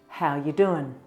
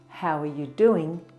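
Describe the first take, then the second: First: The word are is dropped entirely. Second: The word are is clearly said.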